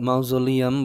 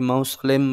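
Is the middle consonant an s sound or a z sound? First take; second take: z sound; s sound. First: The middle consonant is a z sound. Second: The middle consonant is an s sound. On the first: "অনেকে মাউজোলিয়াম বলে" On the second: "অনেকে মাউসোলেম বলে"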